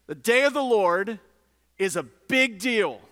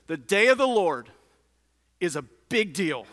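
The two takes are said the same way.

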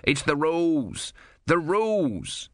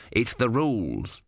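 First: Higher, desperate mock scream of the rules. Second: Slow, matter-of-fact reminder; calm small god. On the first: Om screaming at the Sea Queen to keep the rules. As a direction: shout it into the storm. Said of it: "Om screamed". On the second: Om reminding the Sea Queen of the rules, calm. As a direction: lay down the rule coolly. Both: A narrator's reading.

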